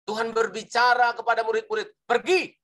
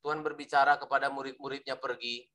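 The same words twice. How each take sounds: First: High, emphatic build to a punched "Pergi"; "Pergi" high and forceful, as an exclamation; exclamation mark. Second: Low, quick, flat, with "Pergi" dropped soft; no exclamation. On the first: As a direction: proclaim it, firing out "Pergi" as a command. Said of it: "Nah, ada tanda seru itu". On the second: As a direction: say "Pergi" low and quiet, without any command. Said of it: "Loh, beda". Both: Shown as a demonstration.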